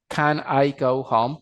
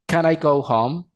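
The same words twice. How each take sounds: First: CAN and I as separate words, slowly; words unlinked. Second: "Can I" glued into ca-NAI; linked words. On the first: Teacher reads the question before showing linking, words unlinked. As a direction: say "Can I" unjoined, a small break before I. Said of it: "pero puedo hacer la técnica del linking word". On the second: Teacher demonstrates the linking technique to learners, linked words. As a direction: slide the N of Can straight into I. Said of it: "puedo hacer la técnica del linking word". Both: Shown as a demonstration.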